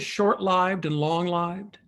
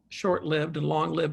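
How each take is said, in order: First: The i in lived sounds like in life. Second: The i in lived sounds like in give. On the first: The word comes from the noun life. The speaker calls it right. "It really is short lived and long lived" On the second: The word comes from the verb to live. The speaker calls it wrong. "which is just wrong because you don't want the verb there"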